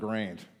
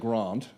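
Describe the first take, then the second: First: The vowel sounds harsh and broad Australian. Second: The vowel sounds soft, not broad Australian. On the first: The speaker calls it wrong. "the Aussie accent type of it is pretty, uh, pretty harsh" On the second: The speaker calls it right. "I much prefer the way you say grant"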